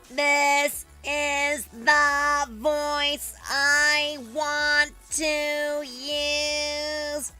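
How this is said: The voice is pinched and tight in the throat.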